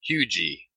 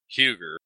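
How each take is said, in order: First: The word ends in an E sound, no R. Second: The word ends with an R sound. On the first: The speaker is from the area. The speaker calls it right. "the locals call that Hugie" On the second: The speaker is not from the area. The speaker calls it wrong. "I have been pronouncing it Huger, but that's how you stand out as not being a local"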